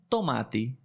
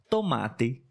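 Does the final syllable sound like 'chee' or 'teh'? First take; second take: teh; teh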